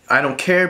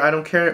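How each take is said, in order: First: It is said with angry, threatening intensity. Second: It is said flatly, with bored indifference. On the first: There will be harsh consequences later. "Not like the I don't care, like I don't care, but you're gonna die later" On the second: The listener truly does not matter to them. "but like a meh"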